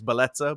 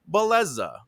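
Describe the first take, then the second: First: The name has an Italian pronunciation. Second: The name has an American pronunciation. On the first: This is the name's original form. "my name's Beleza" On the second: This is how other people say the name. "let people Americanize it where they're like"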